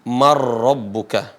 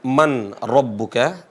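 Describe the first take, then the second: First: The n merges into a doubled r sound. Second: The n is clearly pronounced before the r. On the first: The speaker calls it right. "tapi dibaca apa? Mar rabbuka" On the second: The speaker calls it wrong. "Cara bacanya bukan man rabbuka"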